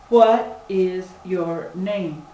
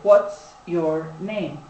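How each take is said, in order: First: "What is" is said as two full words. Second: "What is" is contracted into one syllable. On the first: "They will say" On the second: "we are very, very used to using contractions"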